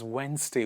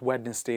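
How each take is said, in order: First: The D sound is silent. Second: The D sound is pronounced. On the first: The speaker calls it right. "D silent" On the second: The speaker calls it wrong. "Not Wednesday"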